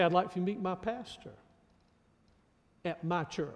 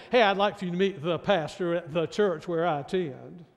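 First: Softer, with "my pastor" and "my church" leaned on; stress on my. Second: Said in the usual way. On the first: Shown as a demonstration. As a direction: press gently on each "my". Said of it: "They say". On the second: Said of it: "they don't say".

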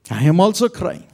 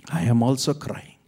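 First: Crying out. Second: Said in the usual way. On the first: Acted. Jesus speaking, repeated line.

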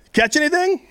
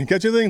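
First: Light, high-pitched casual question; casual high call. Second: A mock hateful taunt. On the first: Acted. Jesus calls from the shore to the fishermen, high and casual. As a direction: call it out like a friendly stranger. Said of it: "and he says". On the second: Preacher re-says Jesus's question as a mild mock taunt. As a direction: toss it off with mild mock spite. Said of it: "the most hateful".

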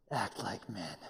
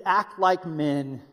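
First: Much lower and softer, pressing it home; low, quiet charge. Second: Each word slow and deliberate; quoting scripture with weight; slow emphatic command. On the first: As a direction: say it low and close to the men. Charging the men directly. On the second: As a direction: lay down the command slowly. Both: Shown as a demonstration.

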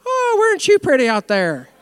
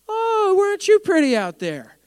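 First: Sarcastic taunt. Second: High, slow, sarcastic Irish lilt; mock him in a little Irish accent; sneering Irish-accented taunt; mock Irish sarcasm. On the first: Retold or imitated. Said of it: "there's sarcasm in the Bible". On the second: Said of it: "that was a little Irish".

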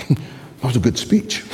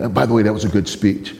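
First: Amused, mocking repeat of speech. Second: Said in the usual way. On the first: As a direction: repeat it with a teasing lift. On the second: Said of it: "He said".

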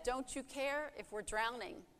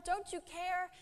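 First: Said in the usual way. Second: High, desperate cry; panicked disciples. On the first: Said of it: "When they said". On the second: Acted. Disciples in the sinking boat begging Jesus, high panicked cry. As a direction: plead in alarm, voice pitched high. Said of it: "shook him awake violently, saying".

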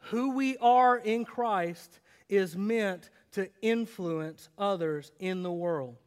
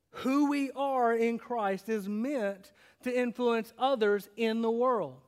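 First: Slow, weighted "are", easy to write down; slow takeaway. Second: Slow, level repeat of the takeaway; slow restatement. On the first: Pastor giving the main point to note down. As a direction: deliver it slowly like dictation. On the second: Pastor repeating the main point for notes. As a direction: say it again slowly and plainly. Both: Shown as a demonstration. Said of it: "Write this down".

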